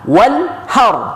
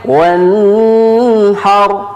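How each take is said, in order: First: The word is said quickly and crisply. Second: The word is said slowly and drawn out. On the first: The speaker calls it right. "Jadi harus cepat" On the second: The speaker calls it wrong. "Tidak boleh wanhar"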